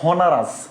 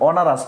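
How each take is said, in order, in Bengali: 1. শব্দটি H ধ্বনি দিয়ে শুরু হয়। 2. শব্দটি একটি স্বরধ্বনি দিয়ে শুরু হয়। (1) "নস হনারাস" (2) "অনারাস নস হনারাস"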